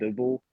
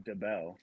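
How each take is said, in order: First: The name sounds like 'dibble'. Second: The name sounds like 'de-bell'. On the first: The speaker calls it wrong. "people used to pronounce it Dibble all the time" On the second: The speaker calls it right. "My last name is actually DeBell"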